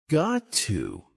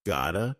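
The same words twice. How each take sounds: First: Said in the usual way. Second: "gotta" as got to merged into one word; "gotta" with a reduced final vowel; connected speech. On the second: Shown as a demonstration. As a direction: run it together as "gotta". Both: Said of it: "some examples of connected speech".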